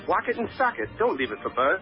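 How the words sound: It is said in a British accent.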